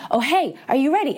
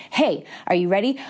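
First: Higher, fast, pressing hey are you ready; the universe nudging harder now; more urgent, quicker repeat; louder insistent call. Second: Said in the usual way. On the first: Shown as a demonstration. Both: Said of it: "it gets louder and louder".

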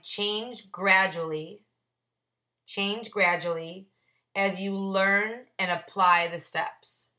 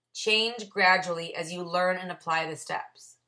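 First: Slow, word by word, as if reading his own margin note; slow deliberate reading. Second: Said in the usual way. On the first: Shown as a demonstration. Sponsor reading his margin note to the meeting, slow and deliberate. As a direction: spell out the note slowly for the group. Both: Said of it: "I wrote on the side".

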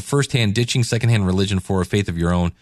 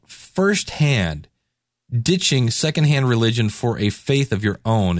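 First: Quick title repeat. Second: Slow title read. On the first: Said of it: "And again, it's called". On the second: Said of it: "book title announced slowly". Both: Shown as a demonstration.

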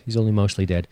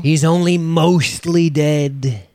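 First: Said in the usual way. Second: High, drawn-out put-on voice; theatrical quote. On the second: Co-host quoting a film line to open, theatrically drawn out. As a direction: stretch it out slowly in a high quoting voice.

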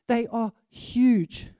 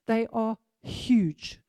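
Both takes have the same delivery.

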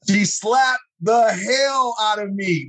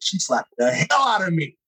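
First: Slow, higher, every word leaned on; slow emphatic retelling. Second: Said in the usual way. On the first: Retold or imitated. Retelling the church slap to listeners, slow and emphatic. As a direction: drag it out to make the slap land.

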